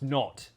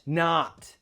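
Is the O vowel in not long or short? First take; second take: short; long. First: The vowel is short and sharp. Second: The vowel is long and open. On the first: The speaker calls it right. "It's a short, sharp O" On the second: The speaker calls it wrong. "It's not not"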